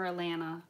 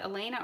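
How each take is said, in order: First: "Alana" with a short A as in "can"; name pronunciation. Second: "Elena" with a long AY in the middle; name pronunciation. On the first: Checking a viewer's name, "Alana" said with a short A. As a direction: say "Alana" as uh-LAN-uh. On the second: Checking a viewer's name, "Elena" said with an AY vowel. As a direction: say "Elena" as eh-LAY-nuh. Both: Shown as a demonstration. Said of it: "Is it Elena or Alana?".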